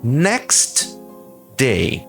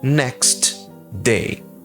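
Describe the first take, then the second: Both takes have the same delivery.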